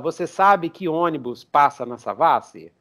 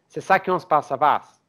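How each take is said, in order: First: Each word is pronounced fully and separately. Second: The words are reduced and run together. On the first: The speaker calls it wrong. "ninguém fala" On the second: The speaker calls it right. "O pessoal fala que"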